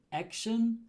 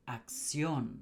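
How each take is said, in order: First: "Action" as AK-shun, pitched higher; English first-syllable stress. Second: "acción" as ak-SYON, falling; Spanish final stress. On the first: Teacher contrasts the emphasis, English stress on first syllable of "Action". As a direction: hit AK in "Action", English style. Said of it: "the syllable before it". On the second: Teacher contrasts the emphasis, Spanish end stress on "acción". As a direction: push the stress onto the last syllable of "acción". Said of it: "where the emphasis is". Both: Shown as a demonstration.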